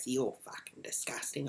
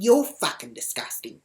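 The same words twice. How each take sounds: First: Soft, muttered mock insult; retold insult. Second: Loud, forceful retort; retold comeback, hit hard; insult thrown back. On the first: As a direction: imitate her, dropping the voice right down. Retold insult traded back and forth. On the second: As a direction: fire the insult back louder.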